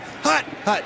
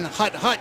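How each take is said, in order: First: The count is said with a sharp, forceful inflection. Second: The count is said in an even rhythm. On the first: A fake meant to make the defense jump early. "a hard count is a voice inflection" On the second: A normal snap count. "You go through your normal cadence. Instead of saying"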